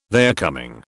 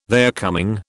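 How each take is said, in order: First: Said in the usual way. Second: "they're coming" with a rising question tune; questioning echo. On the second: A narrator's reading. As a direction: lift the end of "they're coming" as a query. Wife echoes it as a question.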